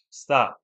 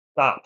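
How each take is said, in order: First: Stern repeat; firm stop. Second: Sharp firm command; stern stop. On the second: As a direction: snap it out loud. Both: Real, not acted. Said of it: "I'm asking you nicely".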